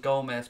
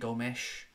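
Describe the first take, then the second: First: The name ends with a plain 'z' sound. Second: The name ends with an intense 'sh' sound. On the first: This is how the name was said early in the game. "Started off as Gomez" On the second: This is how the name was said late in the game, more intensely. "it became Gomesh at the end of it"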